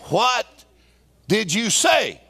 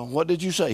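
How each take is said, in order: First: It is said very loudly. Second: It is said at a normal, quiet volume.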